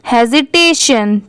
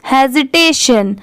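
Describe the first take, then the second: No difference in how they are said.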